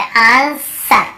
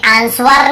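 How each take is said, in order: First: "आंसर" as aan-sar, no w sound; silent W reading. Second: "आंसर" as ans-war, W sounded; mistaken W reading. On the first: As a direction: draw out "आंसर" slowly with the W silent. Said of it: "बस आंसर". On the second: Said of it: "हमें आंसर नहीं पढ़ते". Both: Shown as a demonstration.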